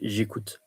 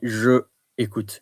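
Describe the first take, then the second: First: The two words are contracted, vowel dropped. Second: The two words are said separately, vowel kept. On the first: The speaker calls it right. "you say j'écoute" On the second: The speaker calls it wrong. "you don't say je écoute"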